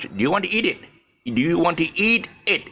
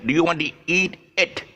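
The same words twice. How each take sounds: First: Eat stretched long, lightly higher; long vowel in eat. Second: It said short and clipped; short vowel in it. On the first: Teacher asking learners about eating the chicken. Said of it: "that means eat it". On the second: Teacher contrasting it with eat for learners. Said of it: "It is the chicken". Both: Shown as a demonstration.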